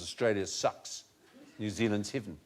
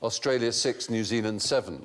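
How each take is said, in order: First: The vowels shift so the numbers sound like 'sucks', 'heaven'. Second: The numbers are said with plain, standard vowels.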